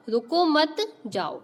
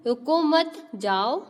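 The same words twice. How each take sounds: First: "रुको मत" together, a break, then "जाओ"; pause after मत. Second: "रुको", a break, then "मत जाओ" as one phrase; pause after रुको. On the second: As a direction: stop after रुको, telling someone not to go. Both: Shown as a demonstration. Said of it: "दोनों के बीच अंतर को समझो".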